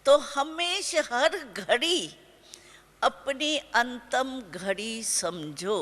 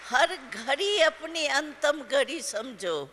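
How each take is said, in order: First: Slow, weighty, each word set apart: हर घड़ी अपनी अंतम घड़ी समझो; slow emphatic slogan. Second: Said in the usual way. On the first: Shown as a demonstration. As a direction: drive the slogan home slowly. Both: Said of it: "समझा?".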